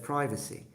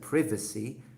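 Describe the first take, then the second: First: The word is said with an American pronunciation. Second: The word is said with a British pronunciation. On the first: "instead of" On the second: "In England, actually, I noticed that most people say"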